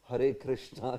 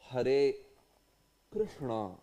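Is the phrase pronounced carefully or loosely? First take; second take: loose; careful. First: The phrase is pronounced loosely, with altered sounds. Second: The phrase is pronounced carefully, with precise sounds. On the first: The speaker calls it wrong. "the way it is pronounced by all our global devotees" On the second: The speaker calls it right. "the perfect pronunciation is"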